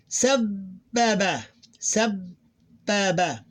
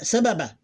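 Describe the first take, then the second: First: Sababa split slowly as sab, held b, baba; held double b. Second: Said in the usual way. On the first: Shown as a demonstration. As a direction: hold a long b after the first syllable of sababa. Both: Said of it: "how we pronounce it".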